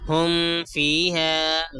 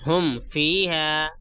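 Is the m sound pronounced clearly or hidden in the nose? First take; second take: hidden; clear. First: The m is hidden as a nasal sound. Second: The m is pronounced clearly with closed lips. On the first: The speaker calls it wrong. "गलत है" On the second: The speaker calls it right. "मीम की आवाज़ को नाक में नहीं छुपाएंगे। ... सही है"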